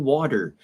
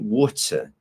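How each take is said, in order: First: It is said in an American accent. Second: It is said in a British accent. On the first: "My English is very American, and I say water" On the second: "if you go to the United Kingdom... usually they say water"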